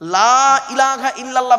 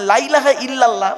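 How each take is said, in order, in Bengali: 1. প্রথম স্বরটি লম্বা করে টানা হয়। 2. প্রথম স্বরটি ছোট করে কাটা হয়। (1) "লয়াকারে টান দেবেন" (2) "লামটা তখন তাকিদের মানে হবে"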